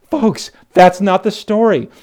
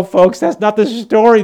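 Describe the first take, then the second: First: Slow, deliberate, each word weighted on "that's"; slower repeat. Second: Loud and high, hitting "that's"; emphatic correction. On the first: Pastor repeating his point, slowed and emphatic. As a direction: drag "Folks, that's not the story" out for weight. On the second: Pastor correcting the congregation, loud and high. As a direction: cry out "that's not the story". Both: Acted.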